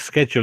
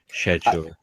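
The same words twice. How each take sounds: First: The word is said the American way. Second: The word is said the posh way. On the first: "traditionally the American way of saying it" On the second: "the posh way"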